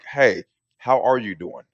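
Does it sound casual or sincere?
sincere. It is said sincerely, with real concern.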